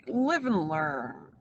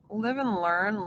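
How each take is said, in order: First: Slow, drawn-out, resigned sigh of a phrase. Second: Said in the usual way. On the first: Shown as a demonstration. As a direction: let "live and learn" sink slowly.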